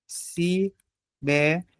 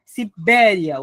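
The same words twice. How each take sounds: First: Sibéria slowly broken into separate beats, Si, bé, ri, a; soft, spaced-out syllables in Sibéria. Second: Sibéria with a strong BÉ, then a weakened ria; Sibéria as one word, falling away on the final glide; weakened ending. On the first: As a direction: count out Sibéria with pauses between syllables. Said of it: "Vamos fazer a separação silábica". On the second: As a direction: hit BÉ and let the end of Sibéria slacken. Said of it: "o som dá uma fraquejada". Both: Shown as a demonstration.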